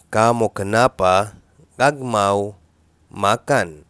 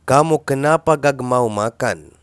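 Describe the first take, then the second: First: "كامو كنابا غاغ ماو ماكان" slowed and split into chunks; slow broken repeat. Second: Said in the usual way. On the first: Shown as a demonstration. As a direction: break it into pieces for the learner. (تكرار بطيء مقطّع لـ"كامو كنابا غاغ ماو ماكان")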